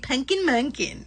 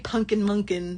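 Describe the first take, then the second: First: It is said in a doting, cooing mom voice. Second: It is said in a flat, plain voice. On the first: It sounds loving and motherly. The speaker calls it right. "You have to say Punkin Munkin" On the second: It just sounds silly. The speaker calls it wrong. "You can't just say Punkin Munkin. That sounds silly"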